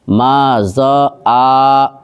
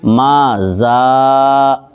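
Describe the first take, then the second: First: The consonant and long vowel are split apart. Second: The consonant and long vowel are joined together. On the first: The speaker calls it wrong. "इस तरीक़े से नहीं पढ़ना है।" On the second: The speaker calls it right. "ये सही है।"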